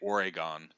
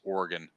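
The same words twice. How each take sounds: First: The word is said with three syllables. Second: The word is said with two syllables. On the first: The speaker calls it wrong. "they get that e in there somehow" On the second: The speaker calls it right. "Oregon has two two two syllables"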